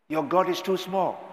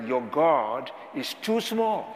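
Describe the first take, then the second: First: Your God is Too Small with the weight on God, pitched up; stressed title. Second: Slow title. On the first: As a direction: pastor repeats the book title, lifting God. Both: Shown as a demonstration. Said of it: "he wrote a book with the title".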